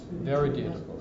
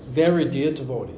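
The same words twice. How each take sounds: First: "Very dear devotee" echoed quietly, Very stressed; softer repeat, leaning on very. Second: Said in the usual way. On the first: Shown as a demonstration. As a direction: let it sink in, pressing Very.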